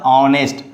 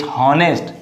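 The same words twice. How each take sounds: First: HONEST begun straight on the vowel; silent H. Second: HONEST with the H said at the start; wrong sounded H. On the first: Teacher corrects for students, HONEST with silent H. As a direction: say HONEST as "onest". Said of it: "It's a honest". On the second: Teacher warns students off sounding the H in HONEST. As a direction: say HONEST as "hon-est" with an H. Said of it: "Don't say H honest". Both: Shown as a demonstration.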